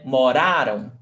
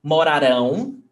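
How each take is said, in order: First: Moraram with the middle syllable ra stressed, ending weak and falling; mo-RA-ram, middle syllable stressed in moraram. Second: Mo-ra-RÃO, final syllable stressed in Morarão. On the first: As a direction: hit RA in moraram, let the last syllable drop. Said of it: "the stressed syllable is ra". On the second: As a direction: land the weight on the end of Morarão, nasal RÃO. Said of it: "the stressed syllable is rão". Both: Shown as a demonstration.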